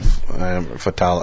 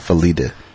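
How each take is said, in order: First: It is said as Fatala. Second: It is said as Felita. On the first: The speaker calls it wrong. "I think she said Fatala or something" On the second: The speaker calls it right. "You gotta say it right"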